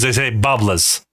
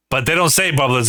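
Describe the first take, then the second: First: "bubblers" slowly as "bubblahs", no R; Rhode Island pronunciation. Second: Said in the usual way. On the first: Retold or imitated. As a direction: drop the R, ending "bubblers" on "luhz". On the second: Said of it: "they say bubblers".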